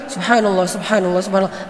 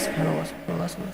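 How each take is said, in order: First: It is said in a stiff, showy way. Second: It is said quietly in a relaxed way.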